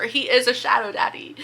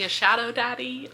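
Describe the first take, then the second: First: Whispered secret. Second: Said in the usual way. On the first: Shown as a demonstration. Vlogger telling viewers a secret about the prince, whispered.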